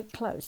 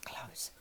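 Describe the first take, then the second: First: Soft inward close; said softly. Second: Whispered close; whispered close to yourself. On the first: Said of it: "Say close to yourself". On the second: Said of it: "whisper it". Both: Shown as a demonstration.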